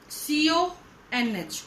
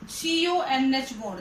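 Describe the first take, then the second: First: सीओएनएच drawn out slowly, letter by letter; spelled out slowly. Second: Said in the usual way. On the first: Shown as a demonstration. (सीओएनएच को धीरे-धीरे अक्षर-अक्षर बोलें) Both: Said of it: "देखो जरा".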